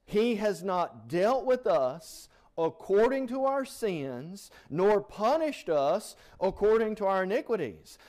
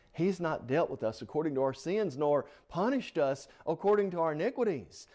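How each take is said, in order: First: Raised, louder preaching read; fervent scripture reading. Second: Said in the usual way. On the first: Acted. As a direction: proclaim the verse to the congregation. Preacher reads Psalm with fervour.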